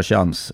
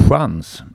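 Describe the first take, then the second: First: "chans" with the Scanian opening sh-sound; Scanian pronunciation. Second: "chans" with the standard Swedish dark sj-sound; standard Swedish pronunciation. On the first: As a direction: say "chans" the southern Swedish way, as in Skåne. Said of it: "som vi säger i Skåne". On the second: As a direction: say "chans" as in rikssvenska, not Scanian. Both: Shown as a demonstration.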